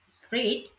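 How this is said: The opening consonant cluster is kept together. "In Standard English"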